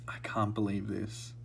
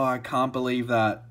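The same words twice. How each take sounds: First: Softer, hushed disbelief; murmured to himself in awe; real quiet wonder; awed murmur. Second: Louder, excited disbelief; real disbelief, said out loud; stunned disbelief. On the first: Quiet awe after the pull. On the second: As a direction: still reeling from the pull. Stunned after the pull. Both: Real, not acted.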